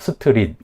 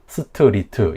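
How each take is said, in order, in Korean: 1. 모음이 추가되어 세 음절이 됩니다. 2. 모음이 추가되어 네 음절이 됩니다. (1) "스트릿 이렇게 삼음절로" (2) "스트리트 이렇게 사음절로 발음을 하겠죠"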